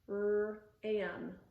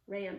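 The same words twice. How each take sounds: First: The r is split off from the rest. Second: The sounds run together in one smooth word. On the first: "segment it like this" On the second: "blend the sounds back together to say ram"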